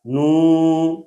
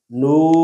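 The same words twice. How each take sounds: First: نو with the long oo through the nose; nasalized vowel. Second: Said in the usual way. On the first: Shown as a demonstration. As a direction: drone نو nasally. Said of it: "صحیح اور غلط". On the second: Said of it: "پڑھیں گے صحیح اور غلط".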